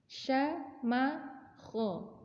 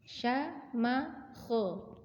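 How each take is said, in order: No difference in how they are said.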